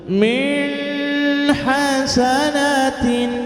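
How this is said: The words are voiced through the nose. "pakai suara hidung yang dikenal dengan bacaan khayshum"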